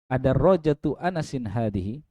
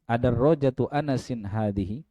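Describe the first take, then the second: No difference in how they are said.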